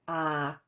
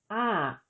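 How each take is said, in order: First: The syllable is said with a mid tone. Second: The syllable is said with a falling tone. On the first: "the tone of an unmarked live syllable is mid" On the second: "with tone mark two, the tone is falling"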